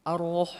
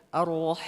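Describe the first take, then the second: The two takes are said the same way.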